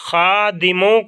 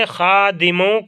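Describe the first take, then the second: No difference in how they are said.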